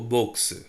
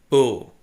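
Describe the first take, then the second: First: The final x is sounded. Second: The final x is silent. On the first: The speaker calls it wrong. "Don't uh, say" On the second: The speaker calls it right. "No change in the pronunciation"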